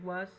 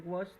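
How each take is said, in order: First: "was" with a clear open a; "was" pronunciation. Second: "was" with a rounded o; "wos" pronunciation. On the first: Teacher accepting either form from students, "was" with open a. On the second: Teacher accepting either form from students, "was" as "wos". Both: Shown as a demonstration. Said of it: "Se puede pronunciar was o was".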